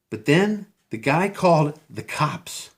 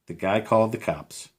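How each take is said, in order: First: Called drawn out slowly and high, in disbelief; stunned emphasis. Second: Said in the usual way. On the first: Real, not acted. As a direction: lean hard on called, stretch it out. Repeated for emphasis.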